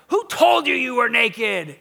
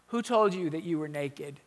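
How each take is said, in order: First: It is asked in a frustrated tone. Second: It is asked in a neutral tone.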